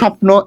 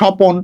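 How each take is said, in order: First: The p and n are joined with no vowel. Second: A short vowel is heard between p and n.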